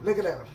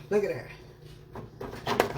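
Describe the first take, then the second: First: Said in the usual way. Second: Whispered. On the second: Real, not acted. Showing ribs, hushed slow.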